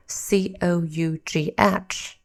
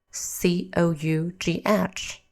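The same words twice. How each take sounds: The two takes are said the same way.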